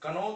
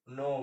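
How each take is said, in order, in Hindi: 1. k ध्वनि n से पहले बोली जाती है। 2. यह शब्द सीधे n ध्वनि से शुरू होता है। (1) "तो इसको हम लोग बोलते नहीं है" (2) "नो बोलते हैं"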